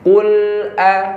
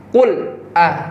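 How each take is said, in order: First: The l runs smoothly into the a. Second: The l is cut off hard before the a. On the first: The speaker calls it right. "huruf lam sukun ke hamzah nyatu" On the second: The speaker calls it wrong. "berpisah hurufnya"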